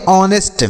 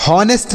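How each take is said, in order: First: ऑनेस्ट starting on the vowel, h silent; ऑनेस्ट as honest with silent h; correct pronunciation. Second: हॉनेस्ट with a breathy h at the start; हॉनेस्ट with an audible h, wrong way; wrong pronunciation. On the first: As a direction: say ऑनेस्ट with no h at all. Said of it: "तो इसे हम पढ़ेंगे ऑनेस्ट". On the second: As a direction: say हॉनेस्ट sounding the h, as the mistake. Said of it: "हॉनेस्ट नहीं पढ़ेंगे". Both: Shown as a demonstration.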